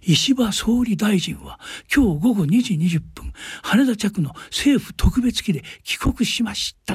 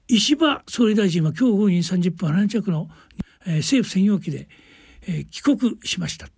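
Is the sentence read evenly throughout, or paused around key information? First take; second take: evenly; paused. First: Every word is read with equal careful weight. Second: Pauses and slowing set off the key information. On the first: The speaker calls it wrong. "一言一句心を込めて誠心誠意読むと" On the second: The speaker calls it right. "ちょっと間をつけてゆっくり言うとかね"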